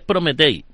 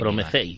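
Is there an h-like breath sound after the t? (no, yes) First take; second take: no; yes. First: The t is plain, with no breath after it. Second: The t is followed by a breathy h sound. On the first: This is how it reads when spelled out. The speaker calls it wrong. "si lo lees es Prometei" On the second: This is how it is said in Ukrainian. The speaker calls it right. "entre la T y la E metes un sonido de H"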